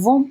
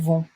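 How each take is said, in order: First: The final T is pronounced, linking to the next word. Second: The final T is silent, with no linking. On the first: The next word starts with a vowel. "We are pronouncing the T here because the next word starts with a vowel" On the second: No vowel follows. "Otherwise, it would be elles vont"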